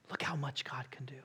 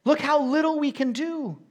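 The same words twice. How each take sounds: First: Sudden hushed whisper. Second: Loud, high cry; loud exclamation. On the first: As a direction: drop to an awed whisper. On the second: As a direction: shout it out to the church. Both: Shown as a demonstration. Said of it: "preacher contrasting man and God".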